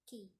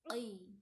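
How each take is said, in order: First: The first sound is a plain k sound. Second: The first sound is made deep in the throat. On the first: "you just say key" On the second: "stress in the throat"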